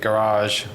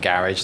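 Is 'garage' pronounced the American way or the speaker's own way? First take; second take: American; own way. First: The word is pronounced with an American accent. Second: The word is pronounced in a non-American accent. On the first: "I said that in a, an American way" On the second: "not garage, like I would have said"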